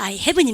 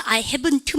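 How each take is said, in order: First: HAVEN'T ending on "n", T unreleased; dropped final T. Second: HAVEN'T with an added, released "t" at the end; final T sounded. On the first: Teacher showing weakened ending, "haven't" without audible T. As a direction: end "haven't" on the n sound. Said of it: "약화시켜서 하지 않는다". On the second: Teacher showing what not to do, "haven't" with released T. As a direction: pronounce the last T of "haven't" fully. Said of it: "끄트머리 드트 발음은 약화시켜서 하지 않는다". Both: Shown as a demonstration.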